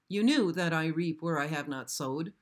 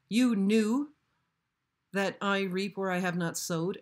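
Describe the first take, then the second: First: It is read as a plain, flat statement. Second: It is read with a mocking, incredulous tone. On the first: The speaker calls it wrong. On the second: The speaker calls it right.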